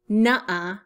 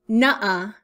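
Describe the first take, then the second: The two takes are said the same way.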